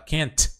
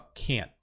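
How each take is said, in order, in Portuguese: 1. O t final é liberado com um sopro de ar. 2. O t final é segurado, sem soltar ar. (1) "ao invés de eu falar can't" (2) "eu só can't"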